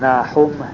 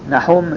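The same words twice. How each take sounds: First: The name is said drawn out and longer. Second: The name is said short and clipped.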